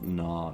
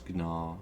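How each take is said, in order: First: The word starts with a plain N sound. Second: The word starts with a hard G sound. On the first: The speaker calls it wrong. "so it's not na" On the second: The speaker calls it right. "You actually pronounce the G"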